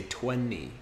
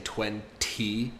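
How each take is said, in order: First: "twenty" said "twenny" with just the N. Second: "twenty" with a clear T. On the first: Teacher showing the natural form second. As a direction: glide from N to the "ee", no T. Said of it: "I say". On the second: Teacher showing the careful form first. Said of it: "instead of saying". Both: Shown as a demonstration.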